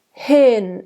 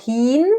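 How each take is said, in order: First: Hin with an open short i. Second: Hin with a closed ee vowel. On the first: Coach showing the right open hin. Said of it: "It's an open I". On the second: Coach showing the wrong closed hin. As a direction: say hin like heen. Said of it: "It's not hin". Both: Shown as a demonstration.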